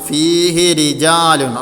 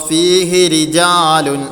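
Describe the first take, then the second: Both takes have the same delivery.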